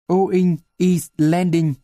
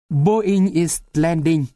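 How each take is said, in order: First: Boeing is said without its B sound. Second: Boeing begins with a clear B sound.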